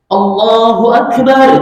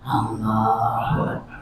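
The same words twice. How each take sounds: First: It is said loudly. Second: It is said softly.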